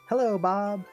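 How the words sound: The first word is loud, then it quiets. "nice big uh, at the beginning and uh, go a little quieter"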